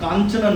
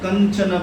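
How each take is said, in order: First: The first vowel is long. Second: The first vowel is short. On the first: The speaker calls it wrong. "कांचन নয়" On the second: The speaker calls it right. "कंचन बरन कांचन নয় कंचन"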